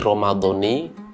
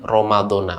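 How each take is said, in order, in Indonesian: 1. Kata ini berakhir dengan vokal 'i'. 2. Kata ini berakhir dengan vokal 'a'. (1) "dibaca mudhof, ... menggunakan kasroh" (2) "dan bisa dibaca Ramadhana"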